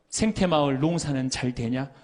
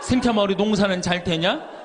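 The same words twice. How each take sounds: First: Lightly voiced friend asking by phone; casual phone check-in, lightly acted; friend's routine call. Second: Same question again, laughing through it; a louder, amused rerun of the call; laughing repeat. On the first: Priest imitates his classmate calling from Rome, lightly voiced. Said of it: "한 달에 세 번 어김없이 전화하는 거예요". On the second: Retold or imitated. Priest laughs as he repeats the classmate's call from Rome. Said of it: "다음 달에 또 전화해".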